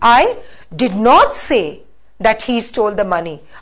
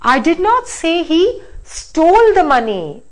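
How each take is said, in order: First: The stress falls on the words did not. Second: The stress falls on the word stole. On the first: Nothing like that was ever said. "Now I'm going to stress on did not" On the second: The money was borrowed, not stolen. "Now let me stress on this"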